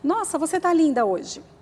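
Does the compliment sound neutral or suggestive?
neutral. The compliment is said in a plain, neutral tone. It is an ordinary, harmless compliment. "poderia ser comum para muita gente"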